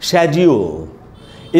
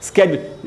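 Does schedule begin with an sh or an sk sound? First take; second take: sh; sk. First: It begins with an sh sound. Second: It begins with an sk sound. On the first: "इसका British pronunciation है शेड्यूल" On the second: "इसका American pronunciation होता है स्केड्यूल"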